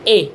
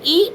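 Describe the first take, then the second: First: The vowel is an 'e' sound. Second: The vowel is a pure 'ee' sound. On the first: The speaker calls it wrong. "ना कि अलिफ जेर ए" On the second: The speaker calls it right. "और अलिफ जेर ई"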